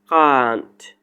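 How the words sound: It is said in a British accent. "This word British accent or pronunciation can't"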